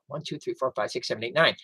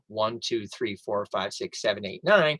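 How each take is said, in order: First: The numbers are counted at a quicker pace. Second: The numbers are counted at a slow pace.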